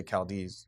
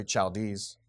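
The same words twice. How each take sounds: First: Chaldees with a hard K start; usual pronunciation. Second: Chaldees with CH as in chair; rejected pronunciation. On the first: Teacher showing how we say it, Chaldees with a K sound. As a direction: say Chaldees as KAL-dees. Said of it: "we say Chaldees". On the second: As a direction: say Chaldees as CHAL-dees. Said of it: "you wouldn't say Chaldees". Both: Shown as a demonstration.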